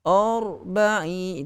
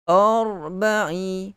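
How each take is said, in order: Both takes have the same delivery.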